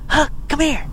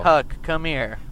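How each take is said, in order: First: It is said with lively, expressive intonation. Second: It is said in a flat, monotone voice. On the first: The reader brings the character to life. The speaker calls it right. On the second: The reader is just reading the words out. The speaker calls it wrong.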